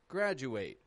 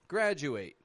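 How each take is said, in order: First: The D and U blend into a J sound. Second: The same.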